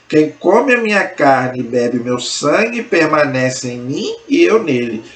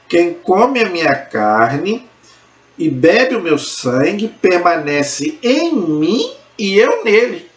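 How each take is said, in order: First: It is spoken at a normal pace. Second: It is spoken very slowly.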